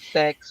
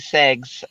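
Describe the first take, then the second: First: The word ends with a plain 'ks' sound. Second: The word ends with a 'g' sound.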